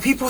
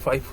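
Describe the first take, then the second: First: The first syllable is pronounced 'fee'. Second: The first syllable is pronounced 'fie'. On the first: The speaker calls it wrong. "왕따 당할 수 있으니까 조심하세요" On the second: The speaker calls it right. "요거는 파이포라고 불러야 돼요"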